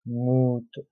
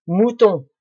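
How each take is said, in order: First: Said in the usual way. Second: Mouton said high and loud, as the answer found; triumphant Mouton, pitched up and louder; emphatic mouton. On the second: Shown as a demonstration. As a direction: ring out Mouton like a discovery. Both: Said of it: "Très bien".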